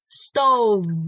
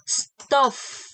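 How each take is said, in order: First: The final consonant is a voiced V sound. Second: The final consonant is a voiceless F sound. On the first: The speaker calls it right. "I should have said stove" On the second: The speaker calls it wrong.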